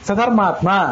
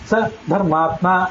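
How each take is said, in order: First: Sa and dharmatma run together without a pause. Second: A short pause comes after sa. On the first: It reads as if it were one word. The speaker calls it wrong. "ಆ ನಾಲ್ಕು ಅಕ್ಷರಗಳನ್ನು ಜೊತೆಗೆ ಓದೋದು" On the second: It reads as two separate words. The speaker calls it right. "ಸ ಆದ್ಮೇಲೆ ಸ್ವಲ್ಪ gap"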